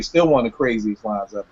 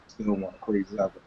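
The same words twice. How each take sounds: First: Said in the usual way. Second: Much softer, quicker repeat under his breath; quiet echo. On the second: Real, not acted. Host repeats his verdict to himself, softly and quickly. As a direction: murmur it again to himself, fast.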